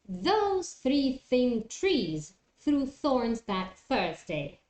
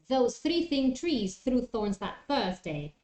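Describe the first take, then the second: First: The phrase is said at a moderate speed. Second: The phrase is said quickly. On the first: "try to do it a little bit faster" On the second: "try to do it a little bit faster"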